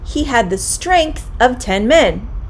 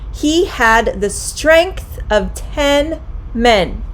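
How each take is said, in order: First: The sentence is said at a quicker pace. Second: The sentence is said at a slow, careful pace.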